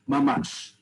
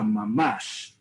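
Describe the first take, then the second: First: It is said plainly, without sarcasm. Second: It is said sarcastically, drawn out.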